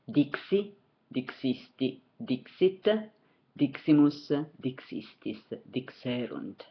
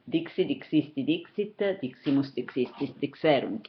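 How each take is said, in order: First: The forms are said at a moderate pace. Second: The forms are said at a faster pace.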